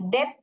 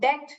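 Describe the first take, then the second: First: A 'b' or 'p' sound is heard before the t. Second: No 'b' or 'p' sound is heard before the t. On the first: The speaker calls it wrong. "अभी इधर डेप्ट करके नहीं पढ़ने का" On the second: The speaker calls it right. "तो इधर बी जो है साइलेंट है"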